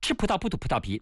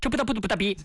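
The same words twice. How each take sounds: First: It is said faster. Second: It is said faster still.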